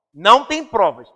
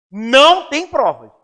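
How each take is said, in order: First: Said in the usual way. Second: "Não tem provas" said slowly, each word weighted, stress on "Não"; stressed slow answer. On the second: Shown as a demonstration. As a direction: drag out "Não tem provas" and lean hard on "Não". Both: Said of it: "tem provas ou não tem provas?".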